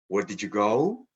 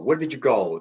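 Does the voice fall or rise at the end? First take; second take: rise; fall. First: The voice rises at the end. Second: The voice falls at the end. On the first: It asks the other person to repeat, or shows disbelief. "if I give this W H question rising intonation" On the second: It is an ordinary information question. "That's a typical falling intonation"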